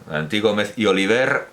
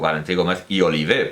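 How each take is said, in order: First: The name is pronounced the Spanish way. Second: The name is pronounced the Catalan way.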